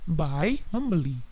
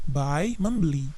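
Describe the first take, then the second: No difference in how they are said.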